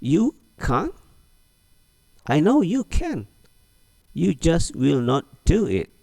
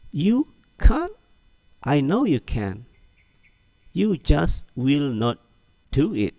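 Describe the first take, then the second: First: High, slow teasing disbelief; high, slowed teasing reply drilled again; repeated model reading. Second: High, teasing disbelief; slow, for repeating; high, slowed teasing reply for the class; model reading. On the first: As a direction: drill it once more. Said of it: "Ulang lagi". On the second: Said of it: "Ulangi lagi". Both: Shown as a demonstration.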